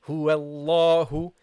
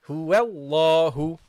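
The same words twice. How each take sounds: Both takes have the same delivery.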